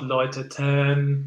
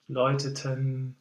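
First: The last syllable is lengthened and leaned on. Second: The last syllable moves quickly to the n. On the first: The speaker calls it wrong. "But not läuteten" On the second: The speaker calls it right. "perhaps just to go to the N sound a bit faster"

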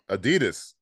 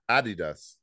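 First: It is pronounced the American way. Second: It is pronounced the British way.

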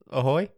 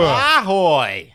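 First: It is said calmly. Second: It is said aggressively.

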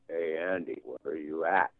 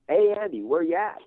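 First: It is said flatly, like a robot. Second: It is said with lively, varied inflection.

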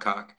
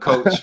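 First: The vowel is short, like in 'cock'. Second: The vowel is long, like in 'coach'. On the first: The speaker calls it wrong. "it's not cock" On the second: The speaker calls it right. "that's how you say it"

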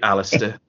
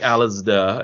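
First: The middle consonant is a hard T sound. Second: The middle consonant is a soft sound. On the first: The speaker calls it right. "it should be a T. It should be Alasdair" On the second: The speaker calls it wrong. "It shouldn't be Alasdair. It shouldn't suddenly be soft in the middle of it"

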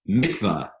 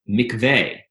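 First: It is said in the American Jewish way. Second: It is said in the standard Hebrew way.

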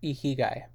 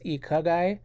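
First: The second syllable has an 'i' vowel. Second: The second syllable has an 'a' vowel. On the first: The speaker calls it right. "It is ikigai" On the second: The speaker calls it wrong. "I had said it was ikagai, but I don't want to mislead you all"

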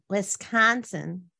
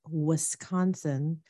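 First: The word is said with a nasal local twang. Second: The word is said plainly, without a nasal twang.

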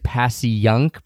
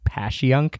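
First: The name is said in its literal, outsider form. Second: The name is said in its local, insider form. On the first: This is how newcomers read the name. The speaker calls it wrong. "You'll see it as Passyunk" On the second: This is how locals say the name. The speaker calls it right. "if you're in the know, you say Passyunk"

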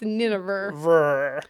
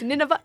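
First: The word is said with an R sound. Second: The word is said without an R sound. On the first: "an R there" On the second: "Like there's no R"

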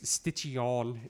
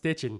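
First: The name ends with a French-sounding ending. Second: The name ends plainly, in an English way. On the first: The speaker calls it wrong. "is what everybody wants to pronounce it" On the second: The speaker calls it right. "it's just Stitchin"

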